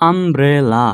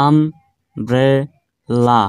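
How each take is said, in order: First: umbrella slowed into আম, ব্রে, লা with only tiny breaks; measured three-beat umbrella, almost joined up; lightly split syllables. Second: umbrella very slow as আম, ব্রে, লা with full pauses between; split into three syllables. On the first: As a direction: say umbrella slowly, each of its three syllables punched. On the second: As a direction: break umbrella into three standalone chunks. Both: Shown as a demonstration. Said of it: "তিনবারে উচ্চারণ হলো".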